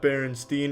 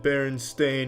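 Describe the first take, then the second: First: The last syllable sounds like 'steen'. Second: The last syllable sounds like 'stain'. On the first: The speaker calls it wrong. "not Berenstein" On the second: The speaker calls it right. "It's always been Berenstain"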